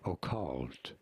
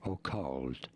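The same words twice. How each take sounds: First: The first vowel is a clear O, British-style. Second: The same.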